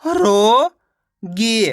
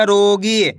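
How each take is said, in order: First: रोगी split as रो, pause, गी; रोगी slowly sounded out in two parts; syllable by syllable. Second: Said in the usual way. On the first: Shown as a demonstration. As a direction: stretch रो upward, then a separate long गी. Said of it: "एक अक्षर का उच्चारण करके". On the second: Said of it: "मिलके बन जाएगा".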